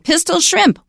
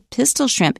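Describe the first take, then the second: First: Both words carry equal stress. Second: Only the first word carries the stress. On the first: The speaker calls it wrong. "we don't say pistol shrimp" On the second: The speaker calls it right. "We say pistol shrimp. It's a compound"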